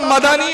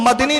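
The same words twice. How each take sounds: First: The d is followed by a short a: Ma-da-ni. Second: The d has no vowel after it: Mad-ni. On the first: The speaker calls it right. "मदनी होता है। दाल पर फतह है, सुकून नहीं है।" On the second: The speaker calls it wrong. "मदनी नहीं होता"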